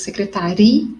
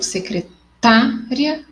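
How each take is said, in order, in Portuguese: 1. O acento cai na sílaba ri. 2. O acento cai na sílaba ta. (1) "o ri é mais forte" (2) "o tá é mais forte"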